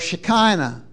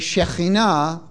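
First: It is said with an anglicized pronunciation. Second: It is said with the Hebrew pronunciation. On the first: The speaker calls it wrong. "I don't say Melchizedek or Shekinah" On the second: The speaker calls it right. "I say Shekhinah"

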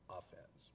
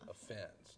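First: The stress is on the first syllable. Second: The stress is on the second syllable. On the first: The speaker calls it wrong. "putting the most of the weight on the off part and not the fence part" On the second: The speaker calls it right. "because it's offense"

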